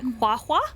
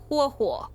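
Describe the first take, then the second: First: Said quickly, with an 'a' vowel after h-u. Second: Said carefully, with an 'o' vowel after h-u. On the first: The speaker calls it wrong. "if you say it too fast and you say it not not paying attention to the right vowel sounds, it comes out saying like hua hua, and that would be H U A H U A" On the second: The speaker calls it right. "but it's not. It's hua hua"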